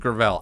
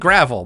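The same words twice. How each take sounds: First: It sounds like a fancy French-style pronunciation. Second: It sounds like the ordinary English word gravel. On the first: "most people pronounce it as Gravel" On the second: "It's spelled like gravel"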